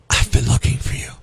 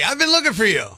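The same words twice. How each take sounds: First: It is spoken in a whisper. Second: It is spoken in a normal voice. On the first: It sounds creepy and threatening. "It's just a little creepier when you whisper it" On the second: A friendly greeting. "you say something out loud"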